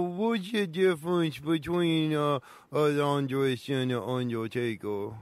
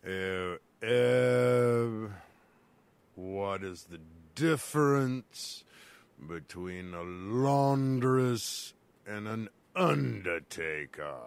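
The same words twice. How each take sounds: First: Said in the usual way. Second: Slow deep voice. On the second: Acted. Slow low voice asks riddle.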